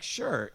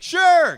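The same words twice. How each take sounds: First: Said in the usual way. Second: Very high, very loud shout; shouted for the deaf. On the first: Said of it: "Now, um, actually". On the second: Retold or imitated. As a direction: holler it at someone hard of hearing. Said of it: "he thought I was hard of hearing".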